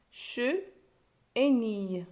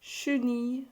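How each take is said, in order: First: "che", a pause, then "et nille"; teacher isolating "che" and "nille"; split into syllables. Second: Said in the usual way. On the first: Shown as a demonstration. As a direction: break chenille into two separate beats, "che... et nille". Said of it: "On a trouvé deux syllabes". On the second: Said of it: "séparer les mots en syllabes".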